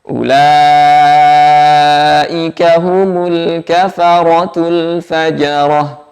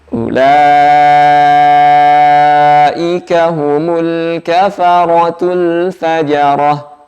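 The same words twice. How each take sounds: Both takes have the same delivery.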